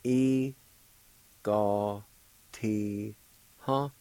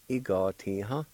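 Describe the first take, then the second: First: "E, ga, ti, ha" in four separate syllables with long pauses. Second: "E, ga, ti, ha" run together as one word; joined-up pronunciation. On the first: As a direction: break "E, ga, ti, ha" apart, holding each syllable for learners. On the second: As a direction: blend "E, ga, ti, ha" smoothly without stopping between syllables. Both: Shown as a demonstration. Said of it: "It's pronounced like this".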